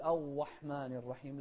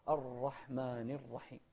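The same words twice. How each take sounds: First: الرحمن with the r weakened to a glide, no trill; untrilled ra mistake. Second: الرحمن with a short, clean tapped r; slow, with a controlled r in الرحمن; correct ra. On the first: Retold or imitated. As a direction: swallow the r of الرحمن. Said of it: "ولا نقول". (الرحمن براء رخوة بلا تكرير) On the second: Shown as a demonstration. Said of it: "لا". (الرحمن براء صحيحة دون مبالغة)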